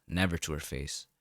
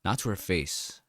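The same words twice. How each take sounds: First: "Never" leaned on, lower and softer; stress on never. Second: Said in the usual way. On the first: A narrator's reading. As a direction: press "Never", then let the voice drop.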